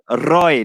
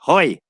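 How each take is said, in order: First: Roy with a strong R at the start; sounded R. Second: Roy said as "Hoy". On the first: Man correcting his own name for a Brazilian, "Roy" with a sounded R. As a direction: say "Roy" on a clear R, never an H. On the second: Man mimicking the wrong way to say his name, "Roy" as "Hoy". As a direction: say "Roy" with a breath of H replacing the R. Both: Shown as a demonstration. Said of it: "my name is Roy, not Roy".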